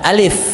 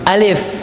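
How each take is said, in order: No difference in how they are said.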